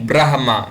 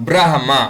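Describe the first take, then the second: The two takes are said the same way.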